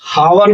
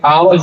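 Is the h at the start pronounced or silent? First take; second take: pronounced; silent. First: The word begins with an audible h sound. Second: The word begins with a vowel, no h. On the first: The speaker calls it wrong. "हावर नहीं पढ़ते" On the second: The speaker calls it right. "आवर पढ़ते हैं, एच silent है"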